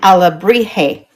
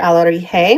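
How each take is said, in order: First: The B sound is clearly, strongly pronounced. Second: The B sound is soft, barely pronounced. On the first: The speaker calls it wrong. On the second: The speaker calls it right.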